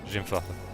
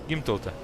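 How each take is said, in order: First: The name begins with a J sound. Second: The name begins with a hard G sound. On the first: The speaker calls it wrong. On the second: The speaker calls it right.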